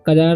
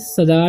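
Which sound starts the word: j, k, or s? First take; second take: k; s. First: The word starts with a 'k' sound. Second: The word starts with an 's' sound. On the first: "सजार या कजार नहीं पढ़ना" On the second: "सजार या कजार नहीं पढ़ना"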